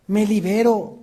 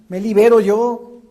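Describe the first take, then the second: First: Said in the usual way. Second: Higher, louder ringing declaration; proclaiming. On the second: Real, not acted. Preacher proclaims to his congregation, loud and high. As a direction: call it out like a release.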